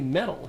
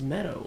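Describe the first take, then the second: First: The word sounds like 'metal' with a clear T. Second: The word sounds like 'meadow' with a D-like sound. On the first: The speaker's own way of saying it. "I say metal" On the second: Someone else's way of saying it. "He says meadow"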